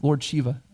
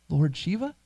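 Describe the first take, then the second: First: Said in the usual way. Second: "Lord Shiva" repeated with a rising question at the end; questioning echo. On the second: Retold or imitated. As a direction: echo "Lord Shiva" back as if asking what it means. Salesman echoes the name back questioningly.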